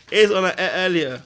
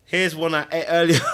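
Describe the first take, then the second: First: Loud, higher, TV-chef "Here's one I ate earlier"; mock TV cook. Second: Louder, laughing "Here's one I ate earlier"; laughing joke. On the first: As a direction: present it like a TV cook. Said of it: "repeat, TV cook style". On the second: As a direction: crack up on it. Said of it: "laughing presenter line". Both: Real, not acted.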